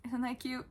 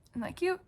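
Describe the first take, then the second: First: Said in the usual way. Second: High, loud gushing squeal; cute-overload squeal; squealed delight. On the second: Real, not acted. Squealing over a plush toy.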